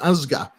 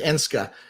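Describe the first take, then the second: First: The name is said with a Mohawk pronunciation. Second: The name is said with an anglicized pronunciation. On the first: The speaker calls it right. "the correct Mohawk uh, pronunci- pronunciation" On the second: The speaker calls it wrong. "the kind of Western pronunciation"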